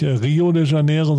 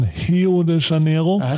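First: The first R sounds like a plain R. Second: The first R sounds breathy, like an H. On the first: The speaker calls it wrong. "die sagen ja zum Beispiel nicht Rio de Janeiro" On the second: The speaker calls it right. "Es wird ja so gehaucht"

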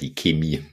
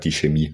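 First: Chemie is said the Bavarian way. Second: Chemie is said the standard way. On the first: "ich komme ja aus Bayern, da sagen wir die Chemie" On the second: "Ich passe mich da jetzt flexibel an"

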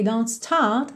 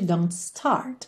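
First: It has a British accent with no r. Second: It has a curled r, not British.

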